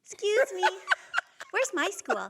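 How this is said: It is said in a put-on little kid voice.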